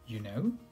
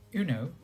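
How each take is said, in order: First: The pitch rises at the end. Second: The pitch stays level at the end. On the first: It asks whether the listener actually knows. "with a rising tone, which sounds more like a question" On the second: It refers to something the listener should already know. "with a natural tone, which sounds casual"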